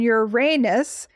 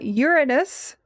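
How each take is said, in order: First: The stress is on the second syllable. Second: The stress is on the first syllable. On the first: This is the common everyday pronunciation. "the more common, everyday, and conversational pronunciation" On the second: This is the pronunciation astronomers prefer. "preferred by astronomers, ... the stress is placed on the first syllable"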